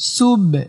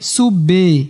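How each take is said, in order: First: The final b is released with a short echo. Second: The final b is followed by a full vowel. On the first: The speaker calls it right. "সুব এমন।" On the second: The speaker calls it wrong. "অনেকে কলকলা করতে গিয়ে সুবে এরকম করে ফেলায়"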